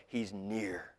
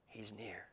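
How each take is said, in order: First: Said in the usual way. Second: He's near said again much softer, almost whispered; soft repeat. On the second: Shown as a demonstration. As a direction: let He's near fall to a hush.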